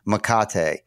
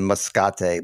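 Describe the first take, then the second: First: No S sound is pronounced in the middle. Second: An S sound is pronounced in the middle. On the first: The speaker calls it right. "but it's Makate" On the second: The speaker calls it wrong. "I'm saying the S"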